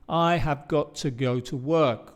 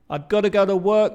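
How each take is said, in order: First: Each word is said fully and separately. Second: It is contracted and 'got to' becomes 'gotta'.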